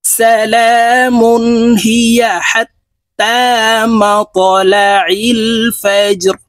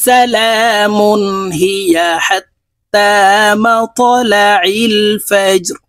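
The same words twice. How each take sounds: The two takes are said the same way.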